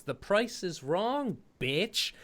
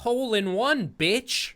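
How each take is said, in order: First: Quoted movie line. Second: Mock Sandler line. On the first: Retold or imitated. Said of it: "obviously the quote was". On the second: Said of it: "Adam, the line was".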